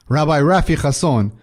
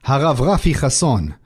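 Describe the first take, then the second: First: "Rabbi Rafi Chasson" with English r and "Rafi" as RAFF-ee; anglicised "Rabbi Rafi", keeping a throaty ch in "Chasson"; English reading of "Rabbi Rafi Chasson" after the Hebrew; English name. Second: "Harav Rafi Chasson" in Hebrew, rolled r and throaty ch; Hebrew name. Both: Shown as a demonstration.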